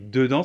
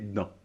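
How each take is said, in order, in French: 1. Les deux syllabes sont prononcées en entier. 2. La première voyelle tombe en parlant vite.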